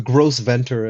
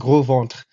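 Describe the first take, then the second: First: It is said with an American English pronunciation. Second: It is said with the original French pronunciation. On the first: The speaker calls it wrong. "as probably the Americans would say it" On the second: The speaker calls it right. "but it's pronounced gros ventre"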